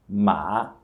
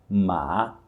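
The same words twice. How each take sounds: The two takes are said the same way.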